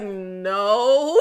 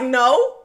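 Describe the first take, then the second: First: The word is said slowly. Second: The word is said quickly.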